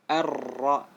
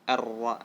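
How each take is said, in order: First: The r vibrates many times in a row. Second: The r has a single light vibration. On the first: The speaker calls it wrong. "salah itu" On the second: The speaker calls it right. "ar-ra yang betul ya"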